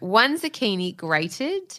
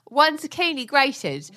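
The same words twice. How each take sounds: First: It is said in the speaker's own normal voice. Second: It is said in an imitated celebrity chef voice.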